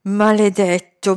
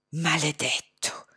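First: "Maledetto" voiced and slow, with rising anger; a mild seething curse; angry curse. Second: Slow unvoiced hiss; venomous hissed curse. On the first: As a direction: let "Maledetto" come out aloud, seething. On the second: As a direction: spit "Maledetto" out in a slow whisper. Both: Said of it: "sibilò Hussain".

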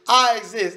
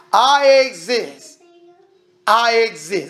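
First: Said in the usual way. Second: Slow, loud, each word leaned on; preacher drives I exist home, slow and heavy; emphatic I exist. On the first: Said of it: "That's what he said". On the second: Shown as a demonstration. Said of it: "the one that says exist".

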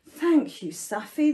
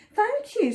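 First: Grateful storybook cheer; a touch of jubilation; mild cheer. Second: Higher little mouse voice; small, high storybook mouse; surprised squeak. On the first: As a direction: cheer the rescuer. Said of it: "the animals cheered". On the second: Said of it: "squeaked Mouse, a little surprised". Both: A narrator's reading.

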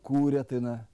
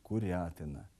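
First: Курятина stressed on the second syllable, курЯтина; correct stress. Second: Курятина stressed on the third syllable, курятИна; wrong stress. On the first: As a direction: say курятина with stress on ря, loud and clear. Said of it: "Правильно". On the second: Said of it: "Неправильно". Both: Shown as a demonstration.

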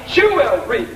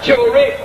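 First: Said in the usual way. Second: "jewelry," split apart and pulled high, stressing "jew"; drawn-out pronunciation. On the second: Shown as a demonstration. To a crowd, showing how he hears the word: "jewelry," stretched with a high first syllable. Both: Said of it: "We say it real quick and call it jewelry".

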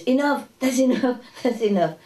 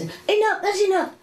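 First: Higher mock nagging voice; imitating the resident. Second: High mock nagging voice; imitating the resident. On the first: Teacher mimics the old lady stopping the cooking, higher and fussy. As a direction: fuss at them to stop cooking. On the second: Teacher mimics the old resident shooing cooks away, high and fussy. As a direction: shoo people off in a high fussy voice. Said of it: "she says".

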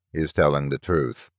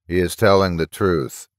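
First: Low, soft toneless box voice; lightly voiced toneless machine, low and soft. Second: Mildly reluctant machine verdict; understated, grudging confirmation. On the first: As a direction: state it like a talking metal box. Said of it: "the metal box said tonelessly". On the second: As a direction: concede it with a touch of reluctance. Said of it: "it said reluctantly". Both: A narrator's reading.

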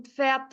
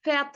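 First: "Pferd" begun with P into F; a small P pop opening "Pferd"; PF pronunciation. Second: "Pferd" begun on a plain F; "Pferd" with the P left silent; F pronunciation. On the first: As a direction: say "Pferd" with the P audible before F. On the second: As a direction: say "Pferd" as "Fert", dropping the P. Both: Shown as a demonstration. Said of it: "İkisi de doğrudur".

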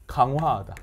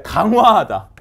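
First: Said in the usual way. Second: 강화하다 said louder and punched; emphatic answer. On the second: Shown as a demonstration. Teacher punching out 강화하다 as the answer. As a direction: hit 강화하다 hard. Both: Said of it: "이렇게 하는 걸 뭐야".

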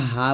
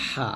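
First: "হা" with an ordinary Bengali h; light everyday h in "হা"; wrong plain ha. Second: "হা" squeezed from mid-throat; thin pressed h in "হা"; correct throat ha. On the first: Teacher shows what not to say, plain ha. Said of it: "এটা হা বলা যাবে না". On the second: Teacher corrects to Arabic pressed ha. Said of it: "এটা হচ্ছে হা". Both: Shown as a demonstration.

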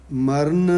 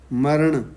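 First: ਮਰਨ ending in a dental n, "marn"; wrong "n" ending. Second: ਮਰਨ ending in retroflex ṇ, "maraṇ". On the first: Teacher shows what not to say, ਮਰਨ with plain n. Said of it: "ਨਹੀਂ ਕਹਿਣਾ". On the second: Teacher corrects the reading, ਮਰਨ with retroflex ending. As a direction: curl the tongue for the end of ਮਰਨ. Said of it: "ਨਾਣਾ ਹੈ". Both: Shown as a demonstration.

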